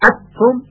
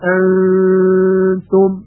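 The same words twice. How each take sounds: First: The n is fully merged into the t. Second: The n is hidden with a nasal hum. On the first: The speaker calls it wrong. "و ادغام هم نمیشه، انتم این هم بسیار اشتباه هست" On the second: The speaker calls it right. "یک حالت بین بین داره، یعنی بین اظهار و بین ادغام"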